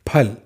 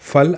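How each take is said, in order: First: The word begins with an aspirated 'ph' sound. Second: The word begins with an 'f' sound. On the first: The speaker calls it right. "इसे आप कहेंगे फल" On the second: The speaker calls it wrong. "फल आपको नहीं कहना है"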